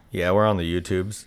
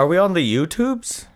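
First: Said in the usual way. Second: "YouTubes" in a high, rising question. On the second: Pretend. Host doubting they are on YouTube, like a question. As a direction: lift "on the YouTubes" as mock doubt. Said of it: "saying it like a question".

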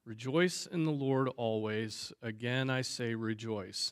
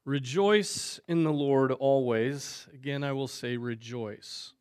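First: Said in the usual way. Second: The verse read slowly, leaning on "Rejoice"; slow emphatic reading. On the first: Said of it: "there's that repetition there for emphasis". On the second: Shown as a demonstration. Reading the main verse to listeners, slow and emphatic. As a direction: let "Rejoice" ring out, unhurried and full. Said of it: "There's our verse".

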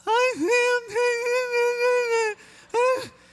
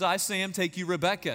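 First: Very high, loud, strangled sobbing squeak; hammed-up blubbering through wedding vows; mock tearful squeal. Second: Said in the usual way. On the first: Groom repeating vows to his bride, comically overcome with tears. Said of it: "And this is what happens". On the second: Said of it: "And he says, "Say these words".

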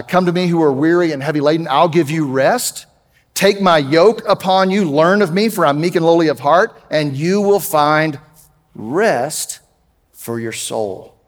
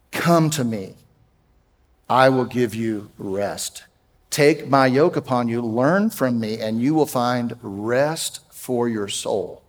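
First: Proclaimed scripture. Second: Softer, slower and lower, almost a comfort; tender reassurance. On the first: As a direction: call the weary in, then let it settle. Reads Matthew 11 aloud. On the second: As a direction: speak it gently to anxious listeners. Repeats verse after anxiety talk. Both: Acted.

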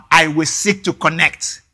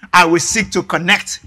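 No difference in how they are said.

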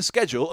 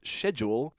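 First: "schedule" said with a hard SK, as SKED-jool; hard SK pronunciation. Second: "schedule" said with a soft SH, as SHED-yool; corrected British pronunciation. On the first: Quoting a film character's slip, "schedule" said SKED-jool. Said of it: "talking this British accent". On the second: Quoting a character correcting himself, "schedule" said British SHED-jool. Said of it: "for him to correct himself on". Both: Retold or imitated.

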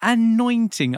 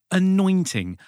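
First: "Anointing" much higher and louder, falling; dramatic repeat. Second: "Anointing" stated clearly with a falling end; announcing the word. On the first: Host repeating the word to the guest, dramatic. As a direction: boom "Anointing" out grandly the second time. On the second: Host introducing the week's word, announcing. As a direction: present "Anointing" like a headline. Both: Shown as a demonstration.

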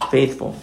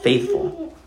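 First: Said in the usual way. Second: Faithful floated up high and soft; faithful sung out high and quiet; lifted emphasis. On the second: Shown as a demonstration. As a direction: let the word faithful rise high and gentle. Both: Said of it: "he shows himself".

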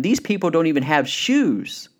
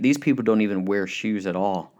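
First: Higher, eager acted delivery; enthusiastic, emphatic punch; excited salesman. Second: Mildly discouraged report; a touch of defeat in the voice; pessimistic salesman. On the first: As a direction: sell it as a golden opportunity. Excited salesman sees the opportunity. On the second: Retold or imitated. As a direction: write it off as hopeless, understated. First salesman gives up on market.

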